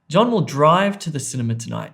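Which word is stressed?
drive. The stress falls on the word drive. He will go by car rather than on foot. "not walk"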